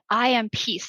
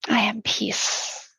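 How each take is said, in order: First: It is said quickly, from the head. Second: It is said slowly and calmly.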